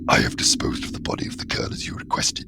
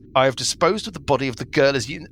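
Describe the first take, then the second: First: It is read in a put-on character voice. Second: It is read in his normal voice.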